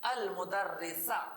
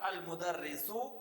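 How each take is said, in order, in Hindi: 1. यह शब्द 'a' स्वर से खत्म होता है। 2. यह शब्द 'u' स्वर से खत्म होता है।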